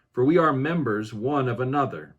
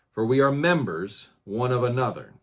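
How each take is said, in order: The two takes are said the same way.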